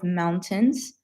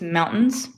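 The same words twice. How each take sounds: First: The word is said slowly and carefully. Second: The word is said quickly and reduced.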